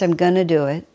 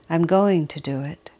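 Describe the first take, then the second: First: 'Going to' is reduced to 'gonna'. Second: 'Going to' is said in full. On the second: "do you hear the difference?"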